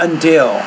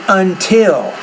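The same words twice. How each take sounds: First: The middle consonant sounds like a D. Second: The middle consonant is a clear T sound. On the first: The speaker calls it wrong. "not until" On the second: The speaker calls it right. "I would say until"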